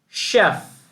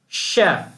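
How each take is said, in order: No difference in how they are said.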